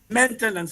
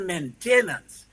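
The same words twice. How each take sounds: First: It is said with standard English pronunciation. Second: It is said with a Creole-influenced pronunciation. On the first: "People don't say maintenance" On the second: "they say maintenance"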